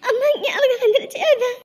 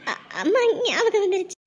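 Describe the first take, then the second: First: Higher, openly sobbing. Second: Broken, choked start; tearful bride missing her mother; crying. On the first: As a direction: let the tears break through. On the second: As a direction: cry through the words missing mom. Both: Acted. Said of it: "இப்படி அழுதுட்டு இருக்க நீ".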